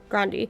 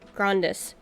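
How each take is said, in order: First: The word ends on a vowel, no final S. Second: The word ends with an audible S sound. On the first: The speaker calls it wrong. "I want to say grandi" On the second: The speaker calls it right. "I know I'm supposed to pronounce the S"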